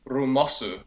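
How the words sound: It is said in a Japanese accent.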